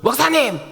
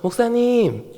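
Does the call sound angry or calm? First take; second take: angry; calm. First: It is called out in a huffing, angry way. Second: It is called out in a calm, friendly way. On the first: The person is upset with the pastor. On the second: The person is not upset with the pastor.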